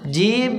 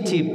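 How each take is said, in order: First: The first sound is a soft j. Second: The first sound is a hard ch. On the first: The speaker calls it right. "জিমের মাখরাজ কোথায়?" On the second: The speaker calls it wrong. "জিমকে যদি বেশি চাপ দেন, ... চিপ হয়ে যায়"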